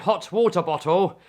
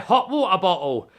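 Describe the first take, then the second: First: The T sounds are clearly pronounced. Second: The T sounds are dropped. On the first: "instead of saying hot water bottle" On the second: "we don't pronounce our T's"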